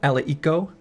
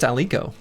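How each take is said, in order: First: The name is said as four syllables. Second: The name is said as three syllables. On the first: The speaker calls it wrong. "I've been sort of pronouncing it like Ali Eco" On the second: The speaker calls it right. "It's just Alico"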